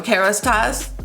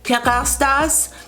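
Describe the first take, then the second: First: The name is said with an English pronunciation. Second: The name is said with a French pronunciation. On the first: This is how local customers say it. "but for us, it's, you know" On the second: This is how the brand's own people say it. "they pronounce it"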